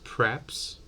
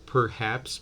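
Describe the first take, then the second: First: The first vowel drops, leaving one syllable. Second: The word is said with two full syllables.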